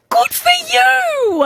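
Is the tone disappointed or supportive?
supportive. It sounds warm and supportive.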